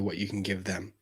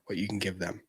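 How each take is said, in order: First: Said in the usual way. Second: Hushed whisper of the key point. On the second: Real, not acted. Telling viewers what matters, whispered. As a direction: whisper it like a secret.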